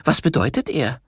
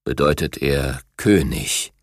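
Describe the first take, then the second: First: Higher, lightly voiced young tiger; young cub voice. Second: Deep, slow, weighty tiger king voice; gentle giant. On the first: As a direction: ask it as an eager cub. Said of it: "sagte Biru". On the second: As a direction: let it sink low, full of dignity. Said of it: "sprach König Eisfell mit tiefer Stimme". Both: A narrator's reading.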